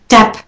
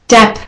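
Both takes have the same delivery.

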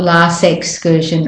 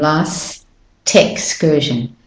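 First: The T sound is dropped between the words. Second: The T sound is kept and joins the next vowel. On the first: The speaker calls it wrong. "It's not" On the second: The speaker calls it right. "You still hear the sounds"

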